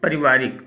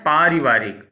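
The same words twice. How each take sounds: First: The first vowel is short. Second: The first vowel is long. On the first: The speaker calls it wrong. "ज्यादातर लोग बोल जाते हैं पारिवारिक, तो पारिवारिक गलत है" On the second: The speaker calls it right. "शुद्ध क्या है पारिवारिक, बड़ा पा होना चाहिए"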